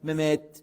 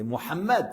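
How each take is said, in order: First: The name is said as two short syllables, Mehmet. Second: The name is said in full as Mohammed. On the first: The speaker calls it wrong. "Il y a certains qui disent Mehmet" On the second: The speaker calls it right. "C'est Mohammed, c'est pas Mehmet"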